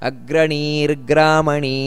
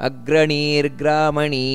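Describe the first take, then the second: Both takes have the same delivery.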